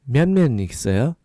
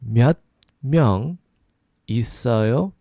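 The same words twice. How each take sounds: First: The phrase is said quickly. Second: The phrase is said slowly.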